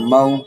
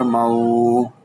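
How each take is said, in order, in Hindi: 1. स्वर को नरमी से और छोटा बोला जाता है। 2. स्वर को लंबा खींचकर बोला जाता है। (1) "बल्कि दुरुस्त तरीका क्या है इसके पढ़ने का?" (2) "इसको ज्यादा खींचेंगे नहीं, इस तरह से नहीं पढ़ेंगे।"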